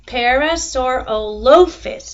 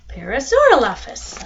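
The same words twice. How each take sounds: First: The O in the last part is long. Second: The O in the last part is short. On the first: The speaker calls it right. "it's a long O" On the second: The speaker calls it wrong. "I'm probably saying that wrong"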